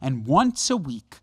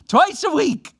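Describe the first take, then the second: First: Said in the usual way. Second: Twice a week, corrected higher and louder; emphatic self-correction on "twice"; stress on twice. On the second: Real, not acted. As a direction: hit "twice" hard to fix the slip. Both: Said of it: "One day I'll get this down".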